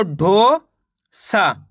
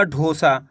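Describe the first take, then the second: First: ढो long and rising, pause, then सा; ढो ... सा as two split syllables. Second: Said in the usual way. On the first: Shown as a demonstration. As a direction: sound out ढो and सा separately. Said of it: "एक अक्षर का उच्चारण करके". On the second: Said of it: "मिलके बन जाएगा".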